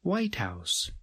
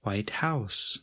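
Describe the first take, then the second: First: "White House" with White strong, House falling away; compound stress. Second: "White House" as two words, House carrying the weight; stress on noun. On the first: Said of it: "uses a compound noun". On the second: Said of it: "adjective and noun that do not". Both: Shown as a demonstration.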